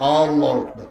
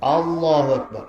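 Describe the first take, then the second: The two takes are said the same way.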